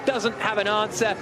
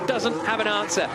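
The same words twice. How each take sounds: The two takes are said the same way.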